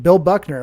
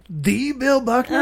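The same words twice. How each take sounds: First: Said in the usual way. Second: THE drawn out and raised high, as in the one and only; starstruck disbelief. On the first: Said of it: "And my boss said". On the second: Retold or imitated. Fan asks his boss if it's that famous player, starstruck disbelief. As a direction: stretch THE into a high, astonished question. Awed reply to boss's naming.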